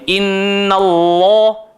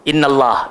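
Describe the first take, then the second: First: The 'l' in Allah sounds thick and heavy. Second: The 'l' in Allah sounds fairly light. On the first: The speaker calls it right. "sepatutnya ... dia kena tebal sikit je lah" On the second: The speaker calls it wrong. "bukan tak tebal, mungkin kurang tebal"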